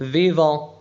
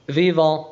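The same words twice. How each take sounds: The two takes are said the same way.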